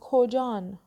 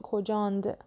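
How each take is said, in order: First: The word ends in a plain -an sound. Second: The word ends in -and, with a final d. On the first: This is the everyday spoken form. The speaker calls it right. "ما تو محاوره میگیم کجان" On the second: This is a mixed form, neither spoken nor written. The speaker calls it wrong. "نمیگیم کجاند"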